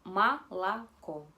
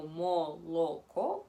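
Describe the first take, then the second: First: Молоко slow and loud as "ma-la-kó"; O reduced to A. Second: Молоко with three full O sounds; as spelled. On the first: Teacher shows what we simply say, O as A. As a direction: open the first two O of молоко into A. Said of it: "nosotros simplemente decimos". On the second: Teacher reads milk as it is written, all O. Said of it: "se escribe como молоко". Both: Shown as a demonstration.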